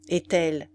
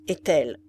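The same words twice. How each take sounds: First: Said in the usual way. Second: Icy voice. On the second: A narrator's reading. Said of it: "d'une voix glacée".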